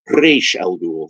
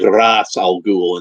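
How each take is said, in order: First: The name is said the animated series' way. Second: The name is said the film's way. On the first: This is how the speaker usually says it. "I always say Ra's al Ghul, like the animated series" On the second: This is how the film says it. "They say they say Ra's al Ghul in that movie"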